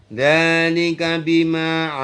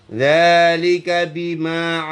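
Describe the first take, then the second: Both takes have the same delivery.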